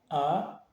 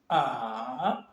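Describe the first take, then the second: First: The pitch rises briefly. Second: The pitch dips down and rises again. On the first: "il est ascendant. Il monte, mais il est bref" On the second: "Il descend et il remonte"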